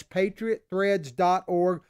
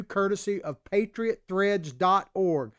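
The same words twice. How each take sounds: First: Slowed down, each word of "patriot threads dot org" set apart; slow repeat for clarity. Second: Said in the usual way. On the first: Shown as a demonstration. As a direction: spell the web address out slowly so they can write it down. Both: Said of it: "That's patriot threads dot org".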